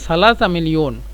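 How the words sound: The word for three begins with a th sound. This is the standard form. "মূলত সালাসা মিলিয়ন"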